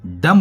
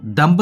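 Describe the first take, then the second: First: डम ending on m, no b; silent b. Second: डम्ब with the final b sounded; wrong pronunciation. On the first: English teacher giving learners the right word, डम with silent b. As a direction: say डम, closing on the m with b silent. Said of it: "डम बोलते हैं". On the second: English teacher warning learners off डम्ब, final b wrongly sounded. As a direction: say डम्ब, voicing the b after m. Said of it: "इसको डम्ब नहीं बोलते". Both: Shown as a demonstration.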